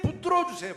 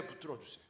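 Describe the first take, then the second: First: High, loud cry of 붙들어 주세요; fervent plea. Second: Soft plea. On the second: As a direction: breathe 붙들어 주세요 softly like an inner prayer. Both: Acted. Pleading prayer repeated.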